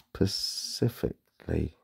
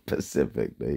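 First: The word starts with a clear initial s sound. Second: The word starts without the initial s sound. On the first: The speaker calls it right. "It's specifically, I think" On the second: The speaker calls it wrong. "Not specifically, you're not in the ocean"

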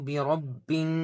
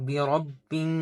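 No difference in how they are said.

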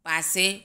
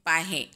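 First: The middle consonant is an 's' sound. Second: The middle consonant is an 'h' sound.

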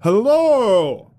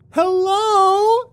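First: It is said in a deep baritone voice. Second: It is said in a high falsetto voice. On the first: "I countered in a deep baritone" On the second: "In a high falsetto"

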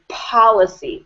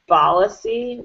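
First: The word begins with a P sound. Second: The word begins with a B sound. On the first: The speaker calls it right. "I would like to hear policy with a P" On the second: The speaker calls it wrong. "I was kind of hearing policy with a B"

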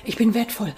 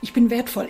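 First: It is said in a strained, tense way. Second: It is said in a strained, tense way.

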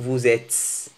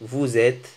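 First: It ends with an audible s sound. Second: It ends without any final s sound. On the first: The speaker calls it wrong. "لم نقول فوزيتس" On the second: The speaker calls it right. "الإس لا تنطق في الأخير"

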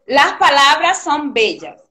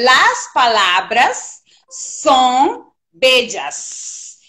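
First: It has a Venezuelan accent with weakened S. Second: It has a neutral accent with full S.

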